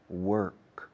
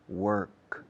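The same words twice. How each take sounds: First: The R is curled and clearly sounded. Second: The same.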